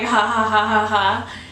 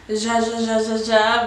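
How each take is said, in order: First: Each syllable starts with a breathy H sound. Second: Each syllable starts with an English J sound. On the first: It is read as laughter, the Spanish way. "but it's like ha ha ha ha ha" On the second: It is read as an English speaker would read it. "they're reading it like ja ja ja ja ja"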